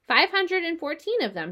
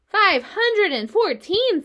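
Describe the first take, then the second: First: Said in the usual way. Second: High, loud and slow, amazed; astonished exclaim. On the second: A narrator's reading. Pig marvels at the spider's egg count, astonished. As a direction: gasp the number out in wonder.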